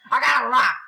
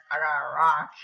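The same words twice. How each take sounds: First: High, loud burst of surprise; astonished shout. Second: Said in the usual way. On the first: Real, not acted. Gamer receiving a rock, astonished shout. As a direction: exclaim in amazed disbelief.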